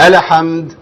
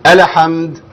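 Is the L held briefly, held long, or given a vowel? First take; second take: vowel; vowel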